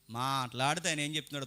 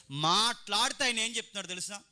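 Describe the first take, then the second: First: Said in the usual way. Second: Raised, insistent stress from "మాట్లాడితే"; emphatic repeat. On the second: Real, not acted. Preacher asking congregation what He says, "మాట్లాడితే" emphatic and raised. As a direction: push "మాట్లాడితే ఆయన" up high, insistently.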